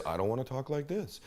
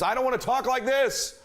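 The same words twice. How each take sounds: First: Softer, dropped-down reply; low volume. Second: Much higher, over-energetic voice; mismatched high volume. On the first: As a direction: drop the volume right down. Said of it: "I wasn't listening for their volume level". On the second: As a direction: blare it high, overdoing the energy. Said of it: "If they talk at a certain volume". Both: Shown as a demonstration.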